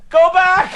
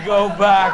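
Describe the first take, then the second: First: High, loud yell to the boat; shouting. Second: Mocking repeat. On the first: Retold or imitated. Running down the bank yelling at the boatman, loud high shout. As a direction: bellow it at the barge. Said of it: "bank shouting". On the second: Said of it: "Go bloody daft thing to say".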